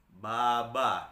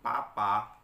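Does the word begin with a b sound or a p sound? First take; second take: b sound; p sound. First: The word begins with a b sound. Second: The word begins with a p sound. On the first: The speaker calls it wrong. "bukan baba gitu ya" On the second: The speaker calls it right. "ini dibaca kalau dalam bahasa Mandarinnya itu papa"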